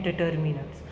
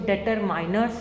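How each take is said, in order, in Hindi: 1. बीच का अक्षर 'min' जैसा बोला जाता है। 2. बीच का अक्षर 'mine' जैसा बोला जाता है। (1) "इसकी प्रोनाउंसिएशन है डिटर्मिनर्स" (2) "इसको डिटरमाइनर्स नहीं पढ़ते हैं"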